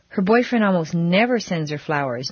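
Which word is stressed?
never. The stress falls on the word never. Flowers come hardly ever, whatever happens. "no matter what"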